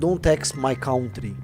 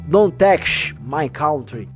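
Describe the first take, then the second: First: It is said without a heavy put-on accent. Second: It is said with a heavy put-on accent.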